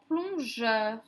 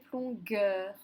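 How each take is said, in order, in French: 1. La consonne du milieu fait un son J doux. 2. La consonne du milieu fait un son G dur. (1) "ça devient un son J. Comme dans plongeur" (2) "Si j'avais mis un U derrière le G, ça aurait fait plongueur"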